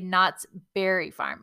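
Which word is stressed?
Berry. The stress is on Berry.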